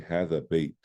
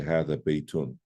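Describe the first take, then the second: First: The word ends without any -un sound. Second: The word ends with an added -un sound. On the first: The speaker calls it right. "that's how we say it" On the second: The speaker calls it wrong. "We don't say"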